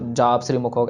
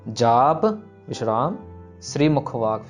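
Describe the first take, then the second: First: The words run together without a pause. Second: There is a pause after the first word. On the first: The title sounds like part of the next line. The speaker calls it wrong. "सो जाप श्री मुखवाक ऐसे नहीं" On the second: The title is read as a separate name. The speaker calls it right. "जाप विश्राम श्री मुखवाक फिर start करना है"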